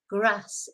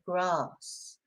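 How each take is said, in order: First: The vowel is a short flat a. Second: The vowel is a long broad a. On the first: This is the northern way of saying it. The speaker calls it right. "I call it the short A" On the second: This is the southern way of saying it. The speaker calls it wrong. "instead of"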